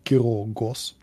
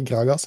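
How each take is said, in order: First: The name is said with Icelandic-style vowels. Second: The name is said with English-like vowels. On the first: The speaker calls it right. "han heter Grågås" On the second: The speaker calls it wrong. "han heter ikke Gragas"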